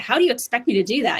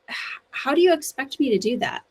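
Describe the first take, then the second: First: It sounds rude and confrontational. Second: It sounds sincere and genuinely curious.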